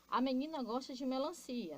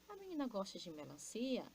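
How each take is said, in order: First: It is said as a plain statement. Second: It is said as a question.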